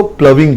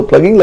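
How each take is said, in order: First: प्लविंग with v replacing the g; spoken pronunciation. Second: प्लगिंग read with a hard g; spelling pronunciation. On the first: Teacher correcting the spelling reading, प्लविंग with a v sound. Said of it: "but इसको प्लविंग बोलते हैं". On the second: Teacher reading it by its spelling, प्लगिंग with hard g. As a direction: say प्लगिंग as spelt, with ग. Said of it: "spelling है इसके हिसाब से तो". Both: Shown as a demonstration.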